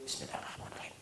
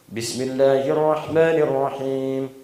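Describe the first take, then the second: First: The phrase is recited softly, almost silently. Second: The phrase is recited aloud in a loud voice. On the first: It is recited silently. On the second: It is recited audibly.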